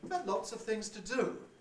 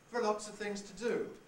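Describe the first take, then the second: First: The opening words are extremely high, near falsetto. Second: The opening words start on a high pitch. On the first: "almost into falsetto" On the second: "that's a high prehead"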